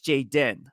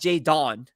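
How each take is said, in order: First: The second syllable sounds like den. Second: The second syllable sounds like don. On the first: The speaker calls it right. "it's Jaden" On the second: The speaker calls it wrong. "it's not J Don"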